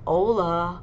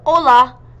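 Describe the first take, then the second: First: It is said plainly, without extra emphasis. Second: It is said with strong, excited emphasis.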